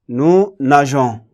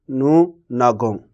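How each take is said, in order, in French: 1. Le g est doux, comme le s de « measure ». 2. Le g est dur, comme dans « go ». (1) "Je suis obligé d'ajouter un E pour garder le son je" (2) "Si je ne le mets pas, on va lire"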